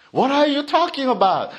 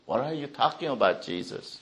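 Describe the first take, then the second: First: Higher, fast and incredulous; puzzled crowd blurting it out; baffled outburst. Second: Softer and fast, nearly whispered; hushed disbelief. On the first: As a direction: fire it back in disbelief. Crowd voiced in a higher, faster take. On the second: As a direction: mutter it under your breath in disbelief. Crowd voiced in a hushed, fast take. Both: Acted.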